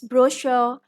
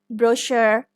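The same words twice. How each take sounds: First: It is said in a British accent. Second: It is said in an American accent. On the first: "We do not pronounce the R in British pronunciation, it's brochure" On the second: "this is brochure in American English"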